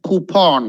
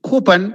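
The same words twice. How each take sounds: First: Coupon as "koo-PAWN"; full, long vowel in the end of coupon; preferred pronunciation. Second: Coupon as quick "KOO-pun"; weak second vowel in coupon; common pronunciation. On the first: Teacher giving the right way, coupon pronunciation. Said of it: "the right way is to say". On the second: Teacher showing acceptable everyday coupon, common pronunciation. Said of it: "Nothing wrong". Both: Shown as a demonstration.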